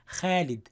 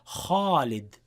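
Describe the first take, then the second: First: The first sound is light and thin. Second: The first sound is heavy and full. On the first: This is how some dialects say it. The speaker calls it wrong. "they pronounce it light" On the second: This is the classical Quranic way. The speaker calls it right. "in classical Arabic, in Quran, it would be kha"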